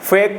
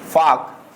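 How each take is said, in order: First: The vowel is pronounced 'ay'. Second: The vowel is pronounced 'ah'. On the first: The speaker calls it right. "फेक पढ़ेंगे" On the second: The speaker calls it wrong. "फाक हमारा ये गलत हो जाएगा"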